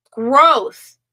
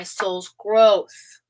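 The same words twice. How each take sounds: First: Growth repeated louder and higher, falling; stress on Growth. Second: Said in the usual way. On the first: Shown as a demonstration. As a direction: hit the word Growth. Repeating the key word.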